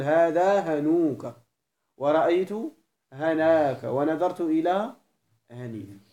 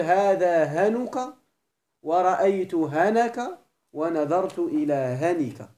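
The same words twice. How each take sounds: First: "هنوك", "هناك", "هنيك" with long ū, ā, ī before the ك; slow model phrases, stretch the long vowel in "هنوك", "هناك" and "هنيك"; full long-vowel form. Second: "هنك" with short final vowels, no long vowel before the ك; slow, emphatic model phrases, keep each vowel before ك in "هنك" short; short-ending form. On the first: Teacher showing students the full form, "هنوك", "هناك", "هنيك" drawn out long. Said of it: "الإتمام هو الإعراب بالحروف". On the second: Teacher showing students the dropped-letter form, "هنك" said with short vowels. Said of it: "النقص هو حذف اللام".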